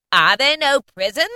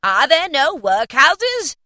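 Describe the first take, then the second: First: High, loud ghostly taunt; mocking ghost. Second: Slow, high, loud ghostly taunt; slow mocking ghost. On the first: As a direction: throw his words back like a spirit. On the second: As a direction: drag it out like a scornful spirit. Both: A narrator's reading. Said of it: "said the spirit".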